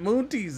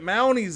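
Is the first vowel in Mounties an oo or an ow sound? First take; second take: oo; ow. First: The first vowel sounds like oo. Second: The first vowel sounds like ow.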